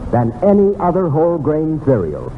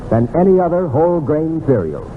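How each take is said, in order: Both takes have the same delivery.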